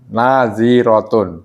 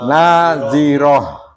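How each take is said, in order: First: The word ends with a full -tun ending. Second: The word ends with a silent breathy h. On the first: The reader continues without stopping. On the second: The reader stops on this word.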